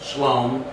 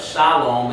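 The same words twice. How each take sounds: First: The first vowel is dropped from the word. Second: The first syllable keeps its full vowel. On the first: "we lost a vowel in shalom" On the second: "Instead of shalom"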